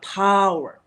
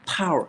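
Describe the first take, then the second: First: The word's sound is stretched out long. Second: The word is pushed out with extra breath. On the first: The word sounds weird. The speaker calls it wrong. "not power. Then you'll be weird" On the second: The word sounds powerful. The speaker calls it right. "use more breath"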